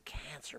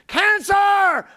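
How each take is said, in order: First: Very soft, low murmur; little tiny cancer. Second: Booming, high shout of CANCER; big loud cancer. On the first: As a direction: shrink the word to almost nothing. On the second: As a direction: blare it out like a huge threat. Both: Retold or imitated. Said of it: "it was just this little thing".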